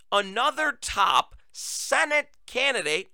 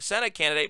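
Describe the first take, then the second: First: Senate drawn out slowly and pitched higher; stress on Senate. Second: Said in the usual way. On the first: Shown as a demonstration. Host stresses Senate while reading out the report. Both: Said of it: "okay, Senate candidate".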